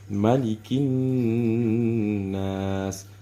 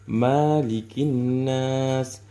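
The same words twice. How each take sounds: First: The first vowel is kept short. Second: The first vowel is drawn out long. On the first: The speaker calls it right. "ma-nya ini kita pendekkan membacanya" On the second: The speaker calls it wrong. "Biasanya dibaca panjang nih"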